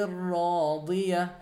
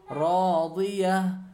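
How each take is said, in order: No difference in how they are said.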